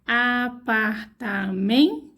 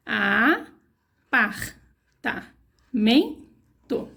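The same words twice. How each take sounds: First: "Apartamento" slowly drawn out, rising at the end; slow syllable spelling. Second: "Apartamento" stretched very slowly, syllable by syllable; very slow sounding out. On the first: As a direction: spell "Apartamento" aloud for children. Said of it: "spelling the whole word". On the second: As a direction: drag out "Apartamento" as if tracing each letter. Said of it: "rereading the finished word". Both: Shown as a demonstration.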